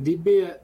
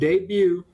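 First: It is said in a Montana-style accent. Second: It is said in the speaker's plain accent.

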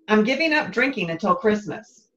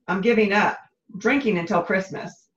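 First: It is said without a pause after "giving up." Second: There is a pause after "giving up."

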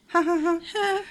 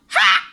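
First: The laugh is quiet and unenthusiastic. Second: The laugh is a loud yell.

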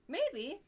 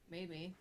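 First: It is said in an eager, positive way. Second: It is said in a reluctant, doubtful way. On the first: The speaker will probably go. "then you're probably going" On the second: The speaker will probably not go. "you're probably not going"

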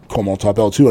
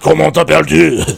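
First: It is said in a plain classroom accent. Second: It is said in a French Canadian hockey-player accent.

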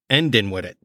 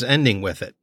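First: Ending is said without its final g sound. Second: Ending is said with its final g sound.

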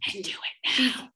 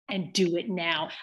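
First: It is said in a whisper. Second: It is said in a normal speaking voice.

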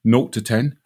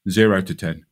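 First: It is said in a British English accent. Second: It is said in an American English accent. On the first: "I'll say it first in English" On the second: "And then I'll say it in American"

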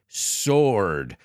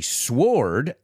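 First: The W sound is silent before the vowel. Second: The W sound is pronounced before the vowel. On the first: The speaker calls it right. "I didn't pronounce the W" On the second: The speaker calls it wrong. "I don't say sword"

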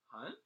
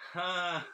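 First: The voice rises at the end like a question. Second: The voice falls at the end like a statement.

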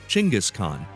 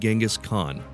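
First: The name is said the Mongolian way. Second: The name is said the common English way. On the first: "the way it's pronounced in Mongolia" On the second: "I'll be pronouncing his name Genghis Khan"

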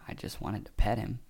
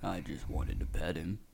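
First: It is said in a normal voice. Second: It is said as a Freddy impression.

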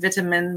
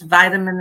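First: It is said in a non-American accent. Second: It is said in an American accent. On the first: "instead of" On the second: "I have to assume an American"

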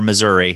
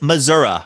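First: The name is said the way outsiders say it. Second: The name is said the speaker's own local way. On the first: This is how people from elsewhere say it. "as, you know, you foreigners say" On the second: This is how people from the region say it. "It is Missouri"

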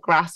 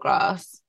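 First: The vowel is short, like in 'ass'. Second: The vowel is long, like in 'arse'. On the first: "on the end of the ass or arse words" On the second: "on the end of the ass or arse words"

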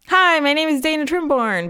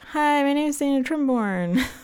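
First: It is said with bright, lively energy. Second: It is said with flat, tired energy.

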